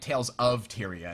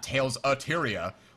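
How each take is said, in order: First: The word 'of' is said fully and clearly. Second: The word 'of' is reduced to a weak 'a'. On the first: The speaker calls it right. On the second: The speaker calls it wrong. "not Tales of Tyria. Like, Tales a Tyria"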